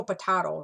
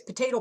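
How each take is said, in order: First: "potato" with a broad "ah", po-TAH-to; potato said the other way. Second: "potato" with a long "ay", po-TAY-to; potato said one way. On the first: Teacher contrasting the second way, "potato" as po-TAH-to. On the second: Teacher showing both ways to say it, "potato" as po-TAY-to. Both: Shown as a demonstration. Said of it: "you may think it's potato".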